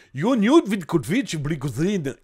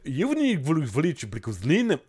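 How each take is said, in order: First: Put-on slow Russian accent on the name, with a touch of ch'ti; mock Russian accent. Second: Mock Russian accent. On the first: Streamer reads the hacker's name to chat in a mock Russian accent. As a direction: roll out Yoniud Vidkovic Blikouzin in a hammed-up Russian accent. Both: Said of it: "accent russe avec un petit peu de ch'ti".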